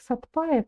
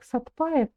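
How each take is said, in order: First: It is said with a hard 'sat' and 'p'. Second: It is said with a hard 'sat' and 'p'.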